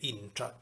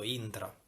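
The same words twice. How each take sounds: First: The tr cluster sounds like English 'train'. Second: The tr cluster is pronounced clean, Italian-style. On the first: This is how most of Sicily says it. "lo pronuncia un po' all'inglese, train" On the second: This is how it is said around Piazza Armerina. "lo pronuncia più pulito"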